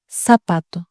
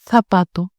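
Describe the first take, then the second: First: The z is pronounced as an s sound. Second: The z is pronounced as a th sound. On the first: This is how most Spanish-speaking countries say it. "se prononce comme S dans la plupart des pays hispanophones" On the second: This is how it can be said in Spain. "En Espagne, elle peut se prononcer comme la T H anglais dans think"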